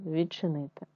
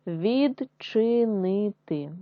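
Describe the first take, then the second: First: Said in the usual way. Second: Відчинити drawn out slowly syllable by syllable; slow syllable reading. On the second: Shown as a demonstration. Teacher sounding out відчинити for pupils, slow. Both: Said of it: "читаємо з вами слова".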